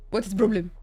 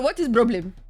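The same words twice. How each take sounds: First: What is problem said lower, resigned; lower repeat. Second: WHAT IS PROBLEM a touch louder, pressing the cat; louder exasperated question. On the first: Owner repeating to her cat, lower and resigned. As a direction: drop it down, giving up. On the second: Owner demanding answers from her meowing cat, louder and exasperated. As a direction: push the word is, fed up. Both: Real, not acted.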